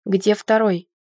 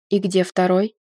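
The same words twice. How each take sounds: First: Firm repeated demand, falling at the end; mildly angry male supervisor; indignant demand. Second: Low-key stern question, rising at the end; strict male supervisor, lightly voiced. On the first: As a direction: demand it impatiently, dropping the final word. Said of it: "возмутился мужчина". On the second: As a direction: ask sternly, lifting the final word. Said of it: "строго окинув меня взглядом". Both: A narrator's reading.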